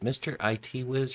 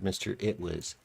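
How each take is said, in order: First: IT is spelled out as two letters. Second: IT is said as one short word. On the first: "it's probably more accurate" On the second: "it rolls off the tongue a little bit better"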